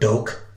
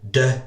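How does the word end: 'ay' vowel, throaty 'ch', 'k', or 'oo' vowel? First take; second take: 'k'; 'ay' vowel. First: It ends in a hard 'k' sound. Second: It ends in an open 'ay'-like vowel. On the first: "it's no spelt with a K" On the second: "de or doke"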